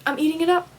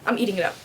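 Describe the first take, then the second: First: Higher, gleeful repeat of "up"; pitched-up gleeful echo; delighted repeat. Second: Said in the usual way. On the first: Real, not acted. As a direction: relish it the second time. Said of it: "Besides that, I'm eating it up".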